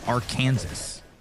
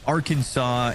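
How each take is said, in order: First: The ending sounds like 'Kansas'. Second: The ending sounds like 'saw'. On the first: "why is it not Arkansas" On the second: "Why is it Arkansas"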